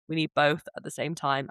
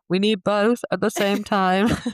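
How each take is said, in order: First: It is said at ordinary conversational volume. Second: It is said louder, with more force.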